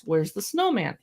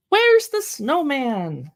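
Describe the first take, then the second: First: Said in the usual way. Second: Put-on slow, higher sing-song question to a baby; enthusiastic read-aloud. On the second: Shown as a demonstration. Reading a baby board book aloud, slow enthusiastic sing-song. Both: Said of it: "read it with an enthusiastic tone of voice".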